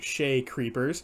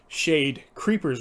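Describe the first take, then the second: First: The first word ends without a d sound. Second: The first word ends with a d sound. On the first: The speaker calls it wrong. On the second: The speaker calls it right.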